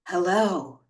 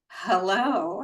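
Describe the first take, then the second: First: It is said in a rich, sexy voice. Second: It is said in an ordinary voice.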